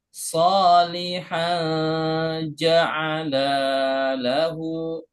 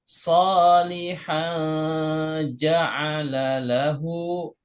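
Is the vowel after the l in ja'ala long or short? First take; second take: long; short. First: The vowel after the l is long. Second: The vowel after the l is short. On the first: The subject of the verb is two people, they both. "kalau Bapak Ibu panjang bacanya" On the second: The subject of the verb is one person, he. "kalau Bapak Ibu baca ja'ala-nya pendek"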